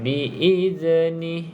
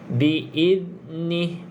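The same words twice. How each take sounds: First: The z has an added bouncing release. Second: The z flows smoothly without any bounce. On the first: The speaker calls it wrong. "Z tu dah ada lantunan" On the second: The speaker calls it right. "jadi jangan ada lantunan"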